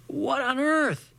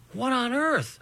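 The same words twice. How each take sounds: First: Much higher, slow astonished cry; shocked. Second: Higher, thought-like disbelief; inner astonishment. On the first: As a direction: gasp it out in disbelief. Shocked exclamation. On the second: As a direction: think it in baffled wonder. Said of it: "I kept thinking". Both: A narrator's reading.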